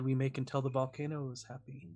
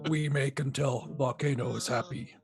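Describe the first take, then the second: First: It is said in a normal voice. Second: It is said in a put-on troll voice.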